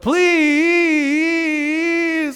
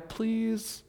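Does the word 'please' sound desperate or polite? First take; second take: desperate; polite. First: The word rises in pitch and sounds urgent. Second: The word is said calmly and politely. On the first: The asker feels it is life or death. "it goes up, please, right? Like it's desperate" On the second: A courteous request. "not just a nice, polite please"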